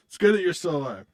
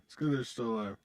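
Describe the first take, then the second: First: Louder, higher, emphatic. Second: Said in the usual way. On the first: Shown as a demonstration. Streamer teasing Kevin loudly in chat. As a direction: punch it out loud and high.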